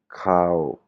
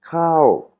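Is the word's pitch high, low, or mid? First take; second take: mid; high. First: The word is said on a level mid pitch. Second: The word is short with a high pitch. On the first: "la intonation normale" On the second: "prononciation courte et intonation haute"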